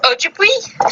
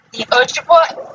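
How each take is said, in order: First: "Ojibwe" ending in "wee", higher and rising; questioning second attempt. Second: "Ojibwa" ending in "wah", rising tentatively; unsure pronunciation. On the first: Reader asks how it is pronounced, questioning second attempt. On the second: Reader forgot how it's pronounced, unsure first attempt. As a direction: try "Ojibwa" with a final "wah". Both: Real, not acted. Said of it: "how is it pronounced again?".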